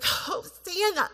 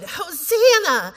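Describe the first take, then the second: First: The word sounds like a desperate plea. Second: The word sounds glad and celebratory. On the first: The speaker begs to be saved. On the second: Something good is being recognized and praised. "oh, this is good, Hosanna. Like, there's a recognition, there's something in it that is good"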